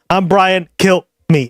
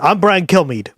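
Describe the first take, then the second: First: There is a pause before the last part. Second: It is said quickly with no pause. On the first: It sounds like a plea to be killed. "I put a pause at the end there" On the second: It is simply the speaker's name. "he says it really fast"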